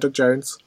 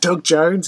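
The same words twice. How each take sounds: First: The name is said flatly and casually. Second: The name is said with excited emphasis. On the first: It is treated as unremarkable news. The speaker calls it wrong. "they're just like, yeah" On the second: It is treated as big news. The speaker calls it right. "no, it's"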